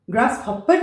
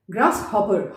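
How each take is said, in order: First: "ग्रासहॉपर" ending "hop-per"; wrong example, double-p "ग्रासहॉपर"; doubled p. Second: "ग्रासहॉपर" ending "ho-per"; one light p in "ग्रासहॉपर"; single p. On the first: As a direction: hold the p in "ग्रासहॉपर". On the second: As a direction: model "ग्रासहॉपर" without doubling. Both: Shown as a demonstration. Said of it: "ग्रासहॉपर नहीं".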